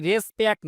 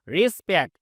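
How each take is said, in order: First: রেসপেক্ট with an open "res" first syllable; the common mistaken রেসপেক্ট, "res-pekt"; wrong pronunciation. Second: রেসপেক্ট with "ri" first syllable, "ri-spekt"; রেসপেক্ট begun with "ri", not "res"; correct pronunciation. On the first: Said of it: "এটা কিন্তু রেসপেক্ট না". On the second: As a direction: say রেসপেক্ট as "ri-spekt", ending in a crisp t. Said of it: "এটা রি করে দিবেন". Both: Shown as a demonstration.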